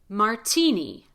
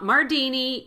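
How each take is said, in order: First: The middle consonant is a crisp, true T. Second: The middle consonant is a light D sound. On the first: The speaker calls it right. "So we say martini" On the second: The speaker calls it wrong. "not Mardini"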